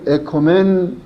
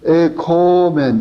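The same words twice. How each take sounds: First: The o vowel is said short. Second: The o vowel is drawn out long. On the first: We have peace. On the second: Let us have peace.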